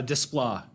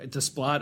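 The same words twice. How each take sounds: First: Desplat with a silent final T. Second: Desplat with the final T pronounced; sounded final T. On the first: Unsure how to say the composer's name, Desplat ending in "plah". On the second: Trying another way to say the composer's name, Desplat ending in a hard T. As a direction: say Desplat to end like "splot". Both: Shown as a demonstration. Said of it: "I don't know how you say it".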